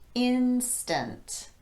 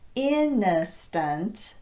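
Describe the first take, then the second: First: It is said with two syllables. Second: It is said with an extra third syllable. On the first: The speaker calls it right. "The word instant also has two syllables" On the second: The speaker calls it wrong. "If a syllable is added to this word"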